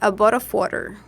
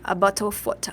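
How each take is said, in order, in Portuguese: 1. É falado com sotaque americano. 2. É falado com sotaque britânico. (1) "no americano é" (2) "o britânico"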